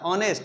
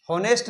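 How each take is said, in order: First: ऑनेस्ट with a silent h, starting on o; ऑनेस्ट starting straight on the vowel, shown as correct; correct pronunciation. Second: होनेस्ट with a spoken h at the start; होनेस्ट with an audible h, shown as wrong; wrong pronunciation. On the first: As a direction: say ऑनेस्ट as on-est, with no h. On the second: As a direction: say होनेस्ट sounding the h, as the mistake to avoid. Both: Shown as a demonstration. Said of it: "ऑनेस्ट बोलना है ना कि होनेस्ट".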